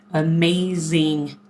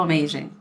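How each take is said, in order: First: AMAZING stretched out slowly, syllable by syllable; emphatic AMAZING. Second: Said in the usual way. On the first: Real, not acted. Vlogger praising her viewers, AMAZING slow and emphatic. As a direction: draw out every syllable of AMAZING.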